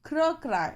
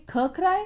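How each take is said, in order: First: क्र क्राई with क and र blended as one cluster; right way. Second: ख क्राई asked higher, with an aspirated ख in place of क्र; teacher tests the class with a mistaken ख क्राई; wrong way. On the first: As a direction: correct the class: a firm, blended क्र before क्राई. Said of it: "तो अब हम क्या बोलेंगे". (सही तरीका, क्र को जोड़कर क्राई) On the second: (ग़लत तरीका, ख क्राई ऊँचे सवाल की तरह) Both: Shown as a demonstration.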